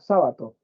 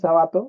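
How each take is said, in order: First: The stress is on the first syllable. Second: The stress is on the second syllable. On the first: The speaker calls it right. "se debería llevar tilde porque sería esdrújula" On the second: The speaker calls it wrong. "ahí parece que dijera Jabato"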